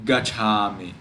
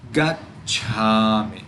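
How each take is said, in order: First: Gacchami run through as ga-chami, no stop; single consonant. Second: Gacchami slow, as gat, a stop, then chami; pause on double consonant. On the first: Teacher showing the wrong reading, gacchami with no held consonant. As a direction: say gacchami quickly past the ch without pausing. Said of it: "It is not". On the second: Teacher showing the right reading, gacchami with a little pause inside. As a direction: hold the stop in gacchami before releasing cha. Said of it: "We make a little pause". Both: Shown as a demonstration.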